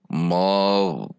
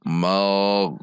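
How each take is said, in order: Both takes have the same delivery.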